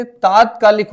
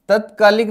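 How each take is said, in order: First: तात्कालिक said with a long first aa, taat-kaa-lik; the right form तात्कालिक, first vowel stretched; correct long aa. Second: तत्कालिक said with a short first a, tət-kaa-lik; तत्कालिक with a clipped opening vowel; the wrong form तत्कालिक, short a at the start. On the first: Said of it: "तात्कालिक होता है". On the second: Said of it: "तत्कालिक नहीं होता बच्चे". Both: Shown as a demonstration.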